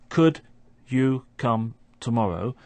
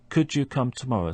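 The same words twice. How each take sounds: First: The d and y sounds stay separate. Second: The d and y merge into a j sound. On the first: "we have a d sound at the end of could and a y sound at the beginning of you" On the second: "those two sounds merge together and create a third sound"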